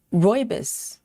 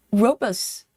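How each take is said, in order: First: "rooibos" said as ROY-bis; accented pronunciation try. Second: "robust" said as ROH-bus; first pronunciation try. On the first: Streamer retries the viewer's tea name, accented pronunciation of "rooibos" as ROY-bis. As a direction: say "rooibos" with an OY in the first syllable. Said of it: "It goes with the accent". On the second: Streamer tries a tea name from chat, first pronunciation try of "robust" as ROH-bus. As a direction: say "robust" with a long O and no final T. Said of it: "how to pronounce that". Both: Shown as a demonstration.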